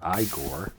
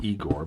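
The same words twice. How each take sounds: First: The name is pronounced the character's own way. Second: The name is pronounced the ordinary way. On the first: The speaker calls it right. "but Igor" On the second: The speaker calls it wrong. "not Igor"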